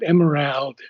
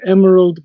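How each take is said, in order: First: The first vowel is not a short A. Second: The first vowel is a short A. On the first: The speaker calls it wrong. "but not emerald" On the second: The speaker calls it right. "a short A"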